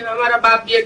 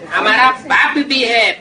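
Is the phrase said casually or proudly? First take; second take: casually; proudly. First: It is said flatly, without pride. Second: It is said with pride and conviction. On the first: The relationship is mentioned without conviction. The speaker calls it wrong. "ऐसे नहीं" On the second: The relationship is declared with joyful certainty. The speaker calls it right. "फलक से कहते हो"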